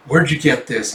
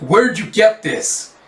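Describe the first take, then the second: First: Said in the usual way. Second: Slow, higher, pressing question; suspicious demand. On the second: Acted. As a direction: lean in and demand an answer. Officer demands about coin.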